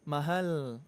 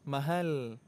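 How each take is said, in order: The two takes are said the same way.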